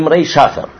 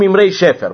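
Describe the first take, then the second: First: The second word's first vowel sounds like 'a'. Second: The second word's first vowel sounds like 'e'. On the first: This is the precise biblical form. The speaker calls it right. "Правильный библейское словосочетание" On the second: This is the everyday spoken form. The speaker calls it wrong. "Мы обычно говорим"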